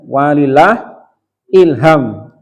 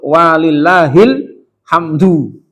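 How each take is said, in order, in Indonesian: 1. Kata-katanya terpisah menjadi 'walillah ilham', berakhir dengan m. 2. Kata-katanya terpisah menjadi 'walillahil hamdu', berakhir dengan du. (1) "Bukan walilah ilham ya. Itu sering ya. Walillah ilham. Itu kurang pas" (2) "yang betul walillahil hamdu"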